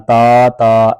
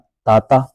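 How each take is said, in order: First: The vowel is stretched out long. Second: The vowel is kept short. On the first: The speaker calls it wrong. "ता ता ऐसे नहीं करना" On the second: The speaker calls it right. "ता ता ऐसे पढ़ना है।"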